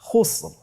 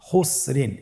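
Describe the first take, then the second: First: The word stops abruptly on a thick r. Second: The word ends with a vowel and n.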